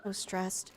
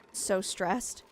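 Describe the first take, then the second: First: Stressed murmur. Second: Said in the usual way. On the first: Real, not acted.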